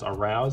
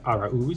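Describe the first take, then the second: First: The name ends sounding like the word 'arouse'. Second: The name ends with a stressed 'ooze' sound. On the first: The speaker calls it wrong. "probably a lot of people mispronouncing his name as Arouse" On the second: The speaker calls it right. "It is, in fact, Araúz"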